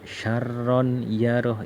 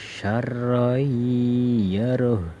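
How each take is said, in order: First: The n sound is pronounced clearly and separately. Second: The n sound merges into the following sound. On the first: The speaker calls it wrong. "Tidak boleh dibaca" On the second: The speaker calls it right. "Bacanya harus"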